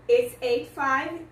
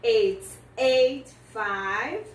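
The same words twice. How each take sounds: First: Said in the usual way. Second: "It's eight five" drawn out very slowly; very slow model. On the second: Shown as a demonstration. Teacher models "It's eight five" for students, very slowly. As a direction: stretch every word of "It's eight five". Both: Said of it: "do jeito que nós olhamos os números".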